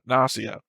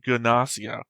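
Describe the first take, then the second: First: The word begins with an N sound. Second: The word begins with a hard G sound. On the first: "we have the silent G rule" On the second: "keeps the hard G sound like"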